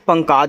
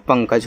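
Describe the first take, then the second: First: The second vowel is long, like 'kaaj'. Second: The second vowel is short, like 'kaj'. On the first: The speaker calls it wrong. "अगर लगा दोगे तो पंकाज हो जाएगा, जो कि गलत नाम" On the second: The speaker calls it right. "का पे नहीं है मात्रा तो मत लगाओ"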